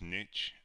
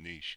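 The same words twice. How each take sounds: First: The word is said with a North American pronunciation. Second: The word is said with a British pronunciation. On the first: "pronounced as niche, I think, in North America" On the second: "I, of course, am British ... that's why I pronounce it niche"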